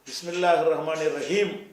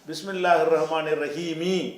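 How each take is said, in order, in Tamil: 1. கடைசி வார்த்தை வெறும் m ஒலியில் முடிகிறது. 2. கடைசி வார்த்தை குறில் i உயிரொலியுடன் முடிகிறது. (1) "பிஸ்மில்லாஹிர் ரஹ்மானிர் ரஹீம் என்று தான் சொல்லுவீங்களே" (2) "தவிர பிஸ்மில்லாஹிர் ரஹ்மானிர் ரஹீமி"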